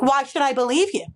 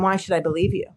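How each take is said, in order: First: It is asked with a confrontational, snippy attitude. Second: It is asked in a calm, neutral tone.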